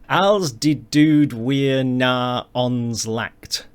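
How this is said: It is said with English-sounding vowels and consonants. "how my English mouth wants to pronounce this"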